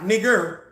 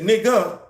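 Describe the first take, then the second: First: The word ends with a hard 'er' sound. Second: The word ends with an open 'a' sound. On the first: It is meant as an insult. "with the E R, the hard E R sound" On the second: It is a term of affection. "You said it with the A"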